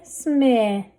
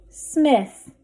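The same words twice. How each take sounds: First: Smith with held vowel, th set apart; blended slowly. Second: Said in the usual way. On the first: Shown as a demonstration. Teacher sounding out a word for readers, blended slowly. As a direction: stretch smith out, adding th last. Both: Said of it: "Let's read this".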